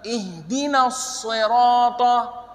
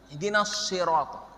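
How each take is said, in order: First: The s in sirata is heavy, with rounded lips. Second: The s in sirata is light and thin. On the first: The speaker calls it right. "yang benar" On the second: The speaker calls it wrong. "huruf sad itu kadang campur dengan huruf shin. Salah"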